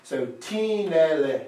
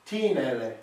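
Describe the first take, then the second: First: Put-on "teen ne le" with a long "teen" and two short light beats after it; dactyl rhythm. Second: Said in the usual way. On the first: Shown as a demonstration. Teacher to student, reading a dactyl slowly. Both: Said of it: "demands a dactyl".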